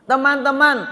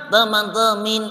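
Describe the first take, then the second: First: "Teman-teman" said cleanly with a clear "teman" ending; the right way to say "Teman-teman"; correct "teman". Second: "Teman-temin" with the second half mangled into "temin"; the funny wrong way to say "Teman-temin". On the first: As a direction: say "Teman-teman" properly with an "a" in both halves. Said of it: "Yang betul adalah teman". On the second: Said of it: "Salah ya? Salah". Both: Shown as a demonstration.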